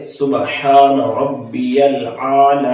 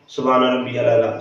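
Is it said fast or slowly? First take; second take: slowly; fast. First: It is said slowly and carefully. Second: It is said fast and rushed.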